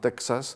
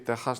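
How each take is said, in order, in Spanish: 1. La consonante del medio suena como ks. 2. La consonante del medio suena como una h aspirada. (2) "se llama así"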